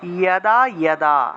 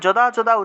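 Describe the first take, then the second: First: The word begins with a y sound. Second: The word begins with a j sound. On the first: The speaker calls it right. "উচ্চারণ করতে হবে ইয়াদা ইয়াদা" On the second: The speaker calls it wrong. "যদা যদা উচ্চারণ না করে"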